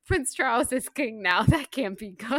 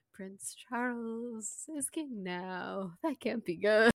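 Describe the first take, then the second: First: Said in the usual way. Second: Quiet, slow sing-song deadpan delivery; sing-songy matter-of-fact. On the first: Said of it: "my favorite one". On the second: Retold or imitated. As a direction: lilt it softly, totally matter-of-fact. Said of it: "like, sing-songy, like, quiet, matter-of-fact voice".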